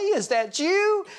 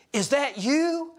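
First: Much higher and slower, stretched in happy disbelief; the pastor greets his old teacher with a high squeal; delighted surprise. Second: Rising, slowed, higher-pitched surprised question; the old Sunday school teacher spotting him and asking, surprised; surprised greeting. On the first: Pastor greets his old Sunday school teacher, squealing surprise. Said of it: "And I said". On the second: Teacher recognizes a former student, high surprised question. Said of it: "and she says". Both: Retold or imitated.

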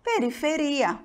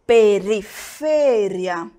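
First: Periferia the Portuguese way, stressed on RI; Portuguese pronunciation. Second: Periferia the Spanish way, stressed on FE, slow and firm; Spanish pronunciation. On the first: Teacher gives the Portuguese counterpart, periferia with stressed RI. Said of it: "No português". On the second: Teacher shows students the Spanish word, slow stressed FE in periferia. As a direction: stretch periferia on its third syllable, pe-ri-FE-ria. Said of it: "no espanhol eu digo". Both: Shown as a demonstration.

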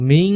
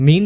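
First: মিং held with a ringing nasal ng; nasal ng ending. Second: মিন closed with a short, clear n; plain n ending. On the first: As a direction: hum the end of মিং through the nose. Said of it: "মিং উচ্চারণ করতে হবে". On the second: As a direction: say মিন without any ng ring. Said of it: "মিন বললে হবে না". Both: Shown as a demonstration.

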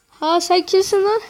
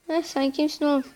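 First: Loud, higher challenging shout; indignant yell. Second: Said in the usual way. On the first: Real, not acted. Yelling at opponents in game.

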